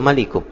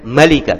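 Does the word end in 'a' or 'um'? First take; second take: um; a. First: The word ends with 'um'. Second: The word ends with a short 'a' vowel. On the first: The speaker calls it wrong. "tidak boleh malikum" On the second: The speaker calls it right. "Malika, tidak boleh malikum"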